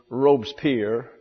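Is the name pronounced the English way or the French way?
English. The name is said with an English pronunciation. "The anglicized pronunciation is"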